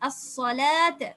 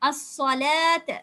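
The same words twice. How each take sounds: Both takes have the same delivery.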